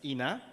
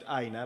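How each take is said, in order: First: The name starts with an 'ee' sound. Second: The name starts with an 'eye' sound. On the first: The speaker calls it right. "but it's Ina" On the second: The speaker calls it wrong. "I want to pronounce it Aina"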